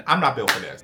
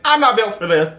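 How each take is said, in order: First: Said in the usual way. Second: Higher, louder repeat of I'm not built for this; exasperated outburst. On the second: Retold or imitated. To himself, quitting the job, exasperated outburst. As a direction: blurt it out fed up.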